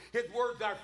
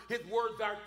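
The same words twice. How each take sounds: The two takes are said the same way.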